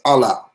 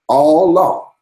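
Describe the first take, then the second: First: The two words are run together quickly. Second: The two words are said slowly and separately.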